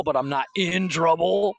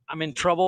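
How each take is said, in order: First: "in" leaned on to mean serious trouble; emphatic "in", setting it against plain trouble; stress on IN. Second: Said in the usual way. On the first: Retold or imitated. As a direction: hit the word "in" in "in trouble". Contrasts two senses of in trouble.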